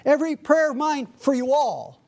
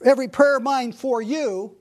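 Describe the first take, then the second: First: "all" leaned on at the end, pitch up; stress on all. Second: Said in the usual way. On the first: Shown as a demonstration. Preacher stressing "you all" to include every saint. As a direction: land hard on "you all". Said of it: "he's making sure that he's being inclusive". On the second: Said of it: "he doesn't just say".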